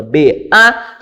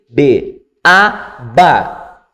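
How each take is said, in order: First: B even, A raised and left hanging; suspended, expectant A after B; left unresolved. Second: B even, A lifted, ba landing firmly; teacher's drill closing on ba; resolved syllable drill. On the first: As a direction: lift A as a cue for the pupil to finish. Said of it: "sem resolver essa questão". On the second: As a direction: spell B, A, then resolve on a falling ba. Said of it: "você acabou de resolver". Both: Shown as a demonstration.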